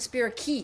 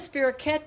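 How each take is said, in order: First: The ending does not sound like croquette. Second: The ending sounds like the word croquette. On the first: The speaker calls it right. "better than spirochete" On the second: The speaker calls it wrong. "I still mispronounce spirochetes because I like the sound of spirochete"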